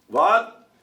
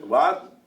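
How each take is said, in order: First: Louder, higher what into the phone; louder repeat. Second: Said in the usual way. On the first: Acted. Tevye repeating louder to the operator on the phone. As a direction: shout it again down the line.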